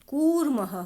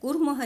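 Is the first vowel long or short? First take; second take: long; short. First: The first vowel is held long. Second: The first vowel is cut short. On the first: The speaker calls it right. "कूर्मः होता है" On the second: The speaker calls it wrong. "कूर्मः नहीं"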